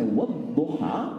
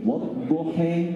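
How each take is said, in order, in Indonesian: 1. Vokal akhirnya adalah bunyi 'a' yang terbuka. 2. Vokal akhirnya condong ke bunyi 'e'. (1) "kalau ibu baca wadduha" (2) "riwayat ini wadduhe"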